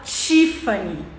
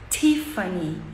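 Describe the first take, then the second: First: The first T sounds like ch. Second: The first T is a soft plain t. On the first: This is how Brazilians say it. The speaker calls it wrong. "a gente fala Tiffany" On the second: This is how Americans say it. The speaker calls it right. "o americano fala t, ... T, bem suave"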